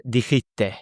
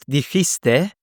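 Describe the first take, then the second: First: "Dijiste" with the S swallowed, dixite; dropped S. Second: "dijiste" with every S pronounced, dixiste; full S. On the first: Teacher imitating the clipped Spanish pronunciation. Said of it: "Not dijiste, dijiste". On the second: Teacher contrasting the textbook pronunciation with care. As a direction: say "dijiste" carefully with the S. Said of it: "Not dijiste". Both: Shown as a demonstration.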